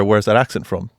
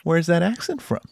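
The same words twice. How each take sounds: First: Lower, mildly menacing question; unfriendly challenge. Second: Higher, soft, friendly curiosity; chirpy and nice. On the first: Imitating someone over here who wants you out, low and unwelcoming. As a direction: imitate a suspicious local, understated. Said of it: "if you hear that over here". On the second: Imitating a dog walker in L A making small talk, chirpy. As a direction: imitate a friendly stranger asking. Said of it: "it's, like, really chirpy and nice". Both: Retold or imitated.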